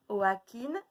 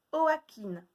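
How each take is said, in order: First: Said in the usual way. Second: "Joaquin" called higher as "oakin"; higher called-out syllable. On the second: Shown as a demonstration. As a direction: call out "Joaquin" high as a riddle. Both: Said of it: "de deviner lesquels c'est".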